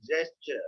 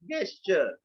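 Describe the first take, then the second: First: "gesture" with a soft G, like "jester"; soft G pronunciation. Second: "gesture" with a hard G, as in "guest"; hard G mispronunciation. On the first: Teacher correcting the common misreading, "gesture" with soft J sound. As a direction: start "gesture" with a J sound, slowly. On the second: Teacher showing how everyone misreads it, "gesture" with hard G. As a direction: start "gesture" with the G of "get", slowly. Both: Shown as a demonstration. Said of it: "No, it's gesture".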